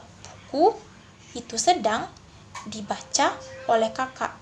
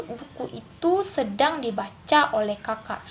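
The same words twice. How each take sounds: First: "Buku" raised and cut off, "itu sedang" left hanging, then "dibaca", "oleh kakak"; confusing phrase breaks. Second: "Buku itu", "sedang dibaca", "oleh kakak" as three sensible groups; correct phrase breaks. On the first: Teacher shows students a muddled split, awkward pauses inside the phrases. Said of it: "pemenggalan tersebut menjadi rancu". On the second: Teacher repeats the properly split example, measured, clear phrasing. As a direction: pause only after "itu" and "dibaca". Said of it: "dua kata yang sedang dipenggal itu". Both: Shown as a demonstration.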